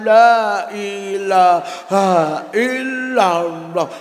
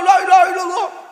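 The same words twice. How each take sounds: First: It is said slowly and quietly. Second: It is said fast and urgently. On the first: The shaking has died down. "lindune kalem zikire kalem" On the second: The ground is shaking right now. "nek lindu ki"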